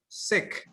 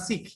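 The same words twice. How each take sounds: First: The vowel is short. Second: The vowel is long. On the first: The speaker calls it right. "remember it's short, like sick" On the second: The speaker calls it wrong. "not sick"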